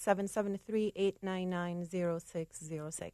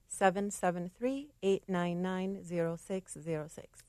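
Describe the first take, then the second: First: The number is said at normal speed. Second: The number is said more slowly.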